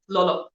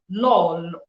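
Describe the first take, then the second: First: It is said quickly in a casual English way. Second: It is said slowly with an Igbo accent. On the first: "I just say lolo, like fast" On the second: "That is the Igbo way of calling Lolo"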